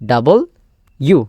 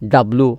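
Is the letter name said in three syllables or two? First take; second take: three; two. First: It is said in three syllables, ending in 'you'. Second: It is said in two syllables, ending in 'loo'. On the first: The speaker calls it right. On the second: The speaker calls it wrong.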